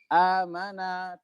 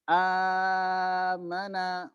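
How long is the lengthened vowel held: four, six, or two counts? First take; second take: two counts; four counts. First: The long vowel is held for two counts. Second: The long vowel is held for four counts.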